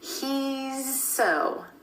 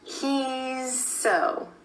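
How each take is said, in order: The two takes are said the same way.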